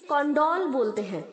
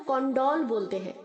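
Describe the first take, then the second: The two takes are said the same way.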